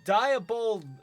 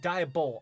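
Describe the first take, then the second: First: The name ends with a D sound. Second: The name ends without a D sound. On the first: The speaker calls it wrong. "I keep pronouncing it with the D at the end" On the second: The speaker calls it right. "but it's Diabol"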